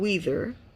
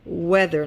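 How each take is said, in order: First: The first vowel is a long ee sound. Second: The first vowel is a short eh sound. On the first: The speaker calls it wrong. "not weather" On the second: The speaker calls it right.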